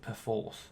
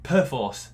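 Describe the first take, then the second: First: It is said in a softer, posher-sounding way. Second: It is said in a harder, solid-sounding way. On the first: This is the official pronunciation. The speaker calls it wrong. "That that's how you're supposed to pronounce it, which sounds just a bit posh and pants to me" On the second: This is the speaker's own preferred pronunciation. The speaker calls it right. "It sounds solid and strong"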